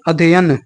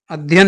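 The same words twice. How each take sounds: First: अध्ययन in full, adh-ye-yan; correct syllables. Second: अध्ययन squeezed into adh-yan; wrong syllables. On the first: Teacher correcting students, अध्ययन with every syllable sounded. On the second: Teacher rejecting an error, अध्ययन cut to adh-yan. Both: Shown as a demonstration. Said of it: "नहीं".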